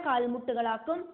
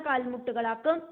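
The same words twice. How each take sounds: Both takes have the same delivery.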